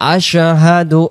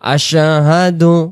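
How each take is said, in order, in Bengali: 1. শব্দটি স্পষ্টভাবে উচ্চারিত হয়েছে, প্রতিটি ধ্বনি আলাদা। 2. শব্দটি স্পষ্টভাবে উচ্চারিত হয়েছে, প্রতিটি ধ্বনি আলাদা।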